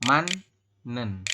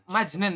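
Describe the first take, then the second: First: The j sound changes into an n. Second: A j sound comes before the n. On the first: The speaker calls it right. "dibacanya adalah manen" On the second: The speaker calls it wrong. "bacanya bukan majnen"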